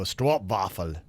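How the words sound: It is said with a Dutch-sounding pronunciation. This is how people from the Netherlands say it. "They go stroopwafel, something like that"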